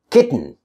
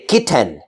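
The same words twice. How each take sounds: First: Kitten as kit-n; vowel-less ending. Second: Kitten as kit-TEN; over-full second syllable. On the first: Teacher modelling natural speech, kitten with bare N ending. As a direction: drop the vowel in kitten, T straight into N. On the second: Teacher showing what to avoid, kitten with full "ten". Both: Shown as a demonstration. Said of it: "I don't say kitten".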